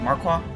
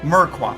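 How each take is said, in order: First: The first syllable sounds like 'mar'. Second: The first syllable sounds like 'mur'. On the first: The speaker calls it wrong. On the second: The speaker calls it right.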